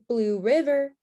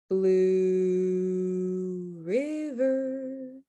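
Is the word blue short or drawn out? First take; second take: short; drawn out. First: The word blue is short and plain. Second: The word blue is stretched out long.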